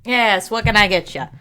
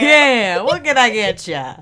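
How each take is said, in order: First: Lightly voiced barkeep; casual bartender taking an order; a hint of a tavern-keeper's voice. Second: Put-on barkeep with a broad Boston accent; louder, hammed-up Boston accent. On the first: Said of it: "I don't know why that's the voice". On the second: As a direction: play it up as a Boston bartender. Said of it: "we're going Boston".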